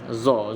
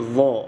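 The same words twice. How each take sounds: First: The tongue stays inside, giving a plain z. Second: The tongue touches upper teeth, giving thick th. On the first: The speaker calls it wrong. "ramai yang baca lidah kat dalam" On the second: The speaker calls it right. "Dia berbeza sedikit"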